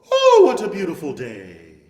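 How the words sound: The pitch moves from high to low.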